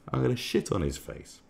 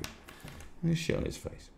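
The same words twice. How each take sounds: First: Said in the usual way. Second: Slow conspiratorial whisper. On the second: Real, not acted. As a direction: hush it like a secret plan. Repeats the threat whispered.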